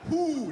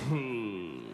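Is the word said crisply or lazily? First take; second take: crisply; lazily. First: It is said crisply, with tight, firm lips. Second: It is said lazily, sliding out with slack lips.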